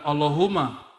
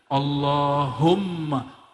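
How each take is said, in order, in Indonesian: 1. Bunyi m-nya tunggal dan dibaca pendek. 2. Bunyi m-nya dobel dan dibaca panjang. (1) "bukan Allahumma" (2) "dia mesti ditasdidkan"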